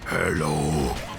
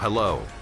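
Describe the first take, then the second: First: It is said in a put-on character voice. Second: It is said in a normal speaking voice.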